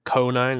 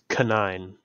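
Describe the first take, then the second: First: The first syllable is stressed. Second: The first syllable is not stressed. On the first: The speaker calls it wrong. "it's not like Conine, like you don't emphasize the, the first part" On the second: The speaker calls it right. "I think it's Canine"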